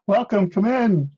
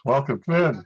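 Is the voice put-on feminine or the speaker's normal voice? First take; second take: put-on feminine; normal. First: It is said in a put-on woman's voice. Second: It is said in the speaker's normal voice.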